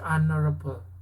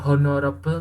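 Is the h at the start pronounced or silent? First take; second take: silent; pronounced. First: The h at the start is silent. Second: The h at the start is pronounced. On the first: The speaker calls it right. "tapi honorable; Hanya jangan dibaca" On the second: The speaker calls it wrong. "bukan honorable"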